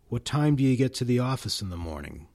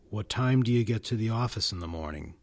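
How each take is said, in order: No difference in how they are said.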